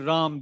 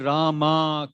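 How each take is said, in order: First: The name ends without its final vowel. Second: The name ends with a pronounced final vowel. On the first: This is how it is said in the north. "If you go north, they'll say Ram. They, they drop it" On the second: This is how it is said in the south. "If you go south, they'll say Rama"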